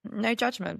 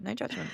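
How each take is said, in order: First: Said in the usual way. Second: Repeated much softer, as an aside. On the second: Shown as a demonstration. A host softly repeats her point to the listeners. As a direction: let "no judgment" drop away into a soft echo.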